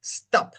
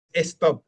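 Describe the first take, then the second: First: "stop" starting straight on the S; no ghost E. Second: "stop" with an E in front, "estop"; "stop" said Spanish-style as "es-top"; wrong, ghost E. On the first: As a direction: say "stop" as "stap", no E in front. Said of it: "es stop". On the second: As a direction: add an E before "stop". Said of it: "la E fantasma no es". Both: Shown as a demonstration.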